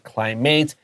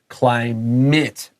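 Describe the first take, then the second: First: The last syllable is full, rhyming with 'ate'. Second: The last syllable is reduced, like 'it'. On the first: The speaker calls it wrong. "not climate" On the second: The speaker calls it right. "A T E ... is not climate because this is not a verb"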